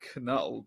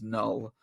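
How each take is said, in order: First: The name begins with a K sound. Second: The name begins with an N sound. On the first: "I sometimes call him Knull" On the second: "I think it is just Null"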